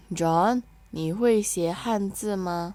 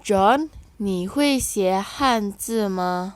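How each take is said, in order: First: Said in the usual way. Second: First take very slow, louder, with stress on 会; slow model reading. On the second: Shown as a demonstration. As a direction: lead the class through it slowly. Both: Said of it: "Kita baca ya".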